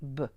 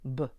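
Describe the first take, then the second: No difference in how they are said.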